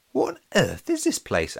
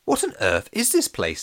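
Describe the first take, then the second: First: High-pitched baffled wondering; high, puzzled inner voice; Alex's puzzled thought. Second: Puzzled question from an unknown speaker; mysterious other voice. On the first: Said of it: "Alex thought". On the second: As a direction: echo the question in another voice. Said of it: "said a voice". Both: A narrator's reading.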